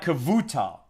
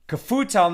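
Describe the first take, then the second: First: The middle consonant is a V sound. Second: The middle consonant is an F sound. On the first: "Kevutal with a V" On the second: "Kefutal with an F"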